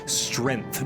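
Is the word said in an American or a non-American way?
non-American. It is said in a non-American way. The speaker calls it right. "I have to say strength"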